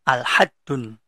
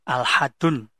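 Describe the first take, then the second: Both takes have the same delivery.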